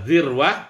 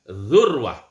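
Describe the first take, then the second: First: The first vowel is an i sound. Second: The first vowel is a u sound. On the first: "Huruf zalnya berharokat kasroh" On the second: "huruf zalnya berharokat dhammah"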